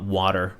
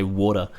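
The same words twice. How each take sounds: First: WATER with a flat AH and a sounded R; American-style pronunciation. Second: Said in the usual way. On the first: Shown as a demonstration. Streamer contrasting accents for viewers, American-style WATER. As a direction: say WATER the American way, "wah-der". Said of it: "and not water". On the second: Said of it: "that I say water".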